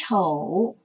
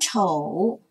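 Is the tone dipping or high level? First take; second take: dipping; dipping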